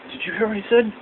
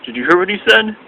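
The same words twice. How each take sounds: First: Higher and softer, secretive aside; imitating R-Truth. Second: Higher, full-volume repeat; imitating R-Truth. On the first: R-Truth asks his imaginary friend, high soft aside. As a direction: lean in and ask the invisible friend. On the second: R-Truth repeats to imaginary friends, higher full voice. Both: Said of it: "pretending like he has imaginary friends".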